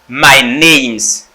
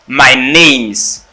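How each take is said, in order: No difference in how they are said.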